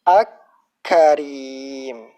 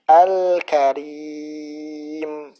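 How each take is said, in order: First: The L merges into a doubled K sound. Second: The L is clearly pronounced before the K. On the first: The speaker calls it wrong. "Bukan diidghamkan seperti ini" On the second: The speaker calls it right. "Akan tapi diizharkan"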